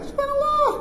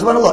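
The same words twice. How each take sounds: First: It is said in a small, thin voice. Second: It is said in a deep, husky voice. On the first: Another person at the back says it. "suara kecil kat belakang" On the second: A different person in the congregation says it. "suara lain. Garau sikit"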